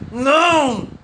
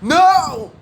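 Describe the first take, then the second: First: It is said held back, containing anger. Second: It is said loudly and forcefully.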